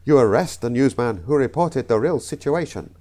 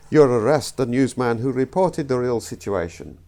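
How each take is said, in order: First: Put-on botched accent drifting into South African; slight South African accent. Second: Put-on botched accent sliding into Russian. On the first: Comedian fluffing a joke take, slight South African accent. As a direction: let a hint of South African creep in. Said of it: "A slight South African". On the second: Comedian fluffing a joke take, accidental Russian accent. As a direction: aim for another accent and land on Russian. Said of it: "The Russian".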